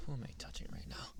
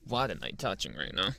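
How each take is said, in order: First: Fast breathy whisper, close to the ear. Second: Said in the usual way. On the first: Acted. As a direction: hush it out quickly as a secret. Whispered tease in roleplay.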